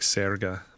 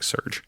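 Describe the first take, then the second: First: The name ends with an extra vowel sound. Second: The name sounds like the English word surge. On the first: "maybe this is like Serga" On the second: "like Americanized"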